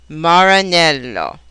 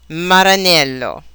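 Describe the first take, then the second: First: The R is made with pursed lips. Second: The R is made with the tongue. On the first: "English R" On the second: "Italian R"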